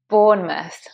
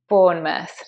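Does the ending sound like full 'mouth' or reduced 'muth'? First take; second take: muth; muth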